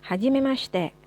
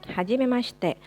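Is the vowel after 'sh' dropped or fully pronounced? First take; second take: dropped; dropped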